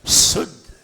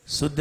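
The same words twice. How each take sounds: First: Whistle hard through the first sound of शुद्ध; forceful शुद्ध, opening on a sustained hiss; whistled sibilant. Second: शुद्ध with a short, soft s; softly said शुद्ध, its first sibilant barely pushed; weak sibilant. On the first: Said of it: "अगर सीटी नहीं आती है". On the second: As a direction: let the opening of शुद्ध slip by with no whistle. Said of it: "शुद्ध नहीं". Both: Shown as a demonstration.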